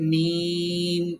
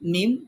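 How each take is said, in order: First: The vowel is long and drawn out. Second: The vowel is short and not drawn out. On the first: The speaker calls it right. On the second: The speaker calls it wrong.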